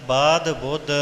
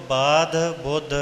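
Both takes have the same delivery.

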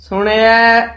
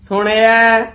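No difference in how they are said.

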